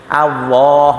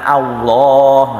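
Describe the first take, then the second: No difference in how they are said.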